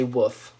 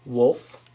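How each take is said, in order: First: "woof" with the L dropped; short vowel straight into F in "woof"; wrong pronunciation. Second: "Wolf" with the L sounded; correct pronunciation. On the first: Warning viewers off this version, L dropped. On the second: Teaching viewers the right word, L sounded. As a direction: say "Wolf" with an L before the F. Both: Shown as a demonstration. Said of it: "Do not say woof".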